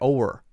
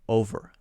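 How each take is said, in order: First: The middle consonant is soft and sounds like W. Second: The middle consonant is a clear buzzing V.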